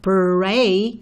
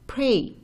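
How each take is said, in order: First: The R sound is strong and emphatic. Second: The R sound is soft and light. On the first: The speaker calls it wrong. "it's not pray" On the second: The speaker calls it right. "So it's not as emphatic"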